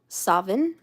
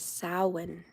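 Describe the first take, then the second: First: It is said with a v sound inside. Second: It is said with an Irish pronunciation. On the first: "the Scottish people, pronounce Samhain as Savin with a V" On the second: "the Irish represented it as Samhain"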